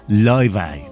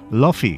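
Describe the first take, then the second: First: It is said Icelandic-style, ending in an 'eye' sound. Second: It is said English-style, ending in an 'ee' sound. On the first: This follows the name's original Icelandic pronunciation. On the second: This is how English speakers tend to say it.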